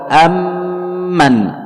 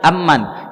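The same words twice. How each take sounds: First: The doubled m is held for two beats. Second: The doubled m is released at once. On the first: The speaker calls it right. "ditahan dulu dua harakat" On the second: The speaker calls it wrong. "tidak langsung dibaca amman"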